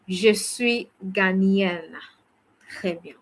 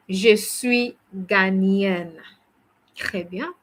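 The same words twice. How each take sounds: The two takes are said the same way.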